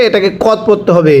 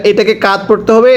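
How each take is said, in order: First: কদ said with a short rounded o; short o in কদ, set against কাদ; contrasting reading. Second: কাদ said with a long open a; teacher's reading. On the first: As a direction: clip the vowel to a short o in কদ. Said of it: "যদি কফ দাল জবর কাদ পড়েন পড়া শুদ্ধ হবে না". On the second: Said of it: "এখানে একটা জিনিস স্মরণ করবেন". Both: Shown as a demonstration.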